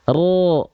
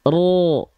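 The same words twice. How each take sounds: The two takes are said the same way.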